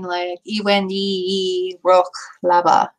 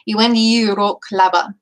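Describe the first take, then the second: First: A small catch separates the two vowels. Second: The two vowels run together smoothly. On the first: "you can also kind of put a little stutter in between" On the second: "you kind of mush the two E's together like like this"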